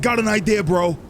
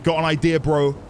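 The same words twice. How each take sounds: First: It is said in a put-on character voice. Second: It is read in the speaker's ordinary voice.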